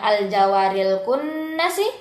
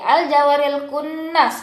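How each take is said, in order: First: The last word ends with a short vowel. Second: The last word ends on a bare consonant. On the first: The reading continues without stopping. "yang tadinya" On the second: The reader stops at the end of the verse. "menjadi al-jawaril kunnas ketika bertemu dengan wakaf"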